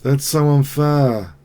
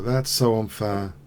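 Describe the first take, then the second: First: Slow, louder drawn-out whine. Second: Said in the usual way. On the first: Real, not acted. Whining after losing.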